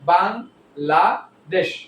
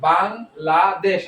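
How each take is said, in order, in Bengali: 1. শব্দটি বিরতি নিয়ে তিনটি অংশে ভাগ করা হয়েছে। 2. শব্দটি কোনো বিরতি ছাড়াই পুরোটা একসঙ্গে বলা হয়।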